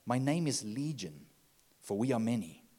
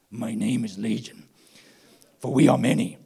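First: It is said in the reader's normal voice. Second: It is said in a changed, put-on voice.

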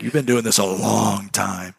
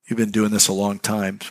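First: It is said with strong, forceful energy. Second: It is said in a calm, plain way.

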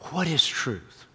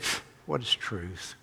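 First: It is asked earnestly and directly. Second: It is asked with a scoffing, dismissive tone.

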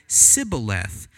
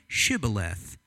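First: The word begins with an 's' sound. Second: The word begins with a 'sh' sound. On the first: The speaker is from Ephraim. The speaker calls it wrong. "the people from Ephraim cannot pronounce the word correctly" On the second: The speaker is from Gilead. The speaker calls it right. "Say Shibboleth"

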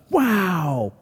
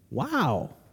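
First: The word sounds impressed and amazed. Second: The word sounds let down and disappointed. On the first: The faith shown is impressive. "rather than the wow faith" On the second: The faith shown is too small. "What if we're more like the wow faith"

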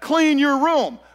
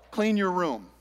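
First: It is said forcefully, with strong emotion. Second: It is said calmly, without strong emotion.

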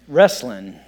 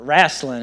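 First: It is said with a standard pronunciation. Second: It is said with a local regional pronunciation.

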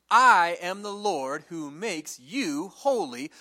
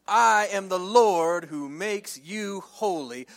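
The two takes are said the same way.

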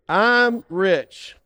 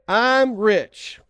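First: It is said forcefully, with conviction. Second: It is said plainly, without much conviction.

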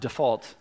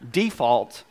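First: It is said in a non-Southern way. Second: It is said in a Southern way. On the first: The speaker calls it wrong. "not default" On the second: The speaker calls it right. "it is pronounced default because we're from the South"

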